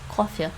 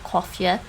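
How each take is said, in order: First: The final vowel is said short and reduced. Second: The final vowel is said full and clear. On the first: The speaker calls it right. "that's a reduced vowel" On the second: The speaker calls it wrong. "so it's not coffee"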